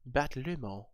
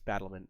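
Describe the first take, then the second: First: The last syllable sounds like 'mont'. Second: The last syllable sounds like 'ment'. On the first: It is a deliberate joke pronunciation. The speaker calls it wrong. "I know it's not pronounced like that" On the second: It is the standard pronunciation. The speaker calls it right. "It's Battlement"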